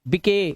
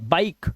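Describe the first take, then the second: First: The final e is pronounced as a vowel. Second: The final e is silent. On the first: The speaker calls it wrong. "बिके गलत है" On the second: The speaker calls it right. "क्योंकि last का ई silent है"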